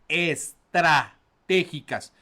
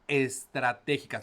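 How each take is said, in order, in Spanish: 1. La palabra se dice con fuerza intensa y contundente. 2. La palabra se dice con energía normal y sencilla. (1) "lo voy a decir con más punch" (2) "Lo voy a repetir"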